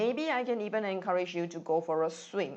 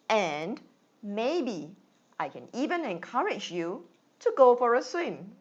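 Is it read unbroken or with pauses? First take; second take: unbroken; paused. First: It is read quickly without pauses. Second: It is read with short pauses between phrases.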